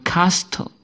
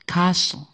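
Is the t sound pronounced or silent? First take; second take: pronounced; silent. First: The t sound is pronounced. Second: The t sound is silent. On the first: The speaker calls it wrong. "Bukan castle" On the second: The speaker calls it right. "membacanya yang benar adalah castle"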